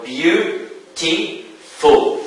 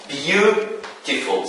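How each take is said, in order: First: "beautiful" slowly as beau, ti, ful with pauses; syllable by syllable. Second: "beautiful" slow, with "beau" stretched; stress on first syllable. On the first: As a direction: count out the three syllables of "beautiful". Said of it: "we have three syllables in this word". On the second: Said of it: "the stress falls on the first syllable". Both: Shown as a demonstration.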